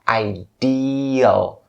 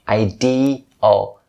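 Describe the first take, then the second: First: The second syllable has a long ee vowel. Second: The second syllable has a long ee vowel.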